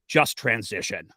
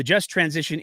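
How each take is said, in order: First: "just" said slow and lower, like "merely", as a scold; "just transition" with "just" stressed like a scolding; stress on the wrong syllable. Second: Said in the usual way. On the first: Shown as a demonstration. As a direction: lean on "just" as if it meant only, drawn out. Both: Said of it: "putting all of the emphasis on the wrong syllable".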